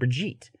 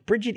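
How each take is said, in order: First: It is said the original way, like Brigitte. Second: It is said the American way, like Bridget.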